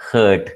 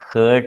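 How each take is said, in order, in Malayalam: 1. സ്വരം 'er' ശബ്ദമാണ്. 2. സ്വരം 'er' ശബ്ദമാണ്.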